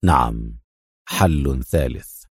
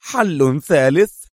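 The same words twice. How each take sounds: First: Deep, slow confirmation; firm. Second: High, drawn-out incredulous question; astonished disapproval. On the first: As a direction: confirm it low, slow and resolute. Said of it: "يقول في حزم". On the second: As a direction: echo it slowly with a rising, doubtful tone. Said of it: "مزيج من الدهشة والاستنكار". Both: A narrator's reading.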